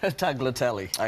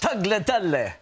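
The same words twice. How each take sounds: First: It is said with a plain English accent. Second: It is said with an Italian accent.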